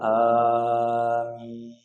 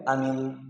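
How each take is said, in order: First: The vowel in amin is drawn out long. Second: The vowel in amin is said short. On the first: It means please accept our prayer. The speaker calls it right. "Ini benar" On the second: It means safe or trustworthy. The speaker calls it wrong. "kalau pendek amin artinya aman"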